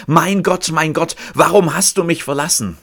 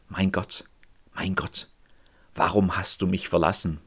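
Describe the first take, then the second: First: Loud, high anguished cry to God; a forsaken man's loud cry from the cross. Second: Soft, low, prayed lament; softly praying the psalm of the desperate; quiet prayer. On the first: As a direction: cry it out in despair. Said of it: "Er schreit". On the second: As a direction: murmur it as a prayer. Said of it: "daraus gebetet". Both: Acted.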